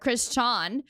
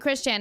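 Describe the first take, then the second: First: The name has a Japanese-influenced pronunciation. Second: The name has a plain English pronunciation. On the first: This is the old way, from watching Japanese content. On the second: This is the new way of saying it.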